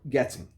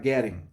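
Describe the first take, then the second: First: It is said with a British accent. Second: It is said with an American accent.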